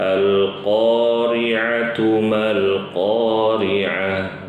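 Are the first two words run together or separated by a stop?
run together. The words run on without a stop. The first and second verses are joined. "kalau mau diwasol cukup dibaca"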